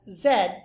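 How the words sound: The letter name is said as 'zed'. "Canadians tend to pronounce the last letter of the alphabet, as do the British, as Z"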